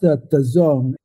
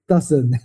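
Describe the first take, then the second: First: The name sounds like the words 'the zone'. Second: The name sounds like the word 'dozen'. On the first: The speaker calls it right. "It's pronounced the zone" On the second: The speaker calls it wrong. "Most people in the company pronounce it wrong"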